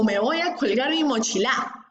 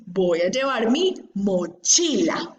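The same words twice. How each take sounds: First: "mochila" said as mochiLÁ, rising on the last syllable; wrong final stress. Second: Slow, "mochila" as mo-CHI-la, middle syllable held; correct penultimate stress. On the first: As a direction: throw the stress onto the end of "mochila". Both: Shown as a demonstration.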